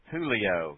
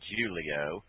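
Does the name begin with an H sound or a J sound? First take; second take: H sound; J sound. First: The name begins with an H sound. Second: The name begins with a J sound. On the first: This is how the name is said where it comes from. The speaker calls it right. "his name is pronounced Julio ... That's how they say it south the border" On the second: This is how the name is said by outsiders. The speaker calls it wrong. "not Julio"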